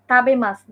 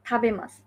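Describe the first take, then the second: First: "তাবেমাসু" with a hard dental t, stressed; wrong unaspirated t. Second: "তাবেমাসু" opening on a breathy th; correct aspirated t. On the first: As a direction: say "তাবেমাসু" with no breath after the t. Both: Shown as a demonstration. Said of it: "তাবেমাসু না".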